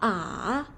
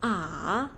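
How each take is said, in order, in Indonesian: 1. Nadanya turun dulu, lalu naik. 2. Nadanya turun dulu, lalu naik.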